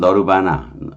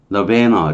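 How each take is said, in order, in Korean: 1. 한국식 발음으로 했어요. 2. 영어식 발음으로 했어요. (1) "우리 말하는 너르바나" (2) "영어로는 너베너 이렇게 발음하는데"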